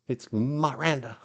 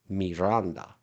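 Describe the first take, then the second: First: The first syllable has an 'ah' vowel. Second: The first syllable has an 'ee' vowel. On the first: "No, it's Ma, Ma, Ma, Miranda" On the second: "properly, correctly, Miranda with an I is a Spanish or Latin name... Mi, I is E"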